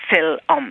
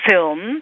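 First: An Irish English vowel splits it into two syllables. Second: It is said as one syllable, standard English.

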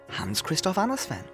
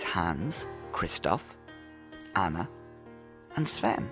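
First: The names are run together very quickly. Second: The names are said at a normal, unhurried pace.

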